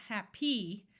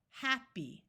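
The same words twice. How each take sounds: First: HAPPY with the weight on the final PY; wrong-syllable stress. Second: HAPPY stressed on HAP, long E ending; first-syllable stress. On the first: Teacher showing what to avoid, second syllable of happy stressed. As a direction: say "happy" slowly as hap-PY. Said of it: "not happy". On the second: Teacher modelling two-syllable words, stress on first syllable of happy. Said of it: "first syllable will be accented". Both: Shown as a demonstration.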